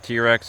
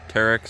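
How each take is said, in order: First: The first syllable sounds like the letter T. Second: The first syllable sounds like 'terr'. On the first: "Some people pronounce it T-Rex" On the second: "some people pron pronounce it Terex"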